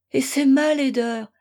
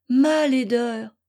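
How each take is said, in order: First: Ma laideur with ma pushed higher and louder; ma laideur, ma pitched up and hit hard; stress on ma. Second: Ma laideur dragged out slowly, ma stressed; slow, heavy second ma laideur; slow repeat. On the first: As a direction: lean on ma in ma laideur. Repeats ma laideur. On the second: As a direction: let ma laideur sink in, slowly. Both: Acted.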